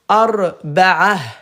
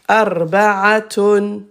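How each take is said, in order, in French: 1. La fin se prononce avec un son h. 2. La fin se prononce avec un son t. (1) "à l'arrêt, ta se prononce ha" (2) "comme la lettre T dans le mot petit"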